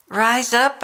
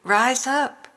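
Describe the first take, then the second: First: Emphatic call to rise. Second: Rising emphatic call. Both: Acted. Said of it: "I say to you".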